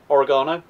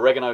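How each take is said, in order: First: It is said with a British pronunciation. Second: It is said with an American pronunciation.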